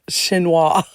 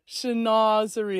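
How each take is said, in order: First: The word ends after two syllables, without '-zerie'. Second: The word is said in full with four syllables. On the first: The speaker calls it wrong. "I used to think that the word chinoiserie was pronounced chinois" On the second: The speaker calls it right. "is the proper pronunciation"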